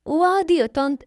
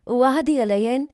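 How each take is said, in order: First: Put-on high, eager little-girl voice; child promising. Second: Hopeful question, slightly raised pitch; asking a promise. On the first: Little girl promises her stepmother, high and eager. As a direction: promise eagerly, pitched well up. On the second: Acted. Stepmother asks the little girl to promise, hopeful. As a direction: lift the ending, seeking assurance.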